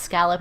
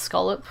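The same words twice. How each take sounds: First: "scallop" said SKAL-up; "scallop" with the a of "pal"; short-a pronunciation. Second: "scallop" said SKOL-up; "scallop" with a rounded first vowel, rhyming with "dollop"; local pronunciation. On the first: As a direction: say "scallop" to rhyme with "gallop". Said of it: "it's not pronounced scallop". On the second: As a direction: say "scallop" with an o, as in "doll". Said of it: "it's pronounced scallop". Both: Shown as a demonstration.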